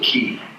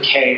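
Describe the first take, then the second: First: The word rhymes with 'see'. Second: The word rhymes with 'day'. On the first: "He means you pronounce it key" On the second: "Other times they pronounce it K"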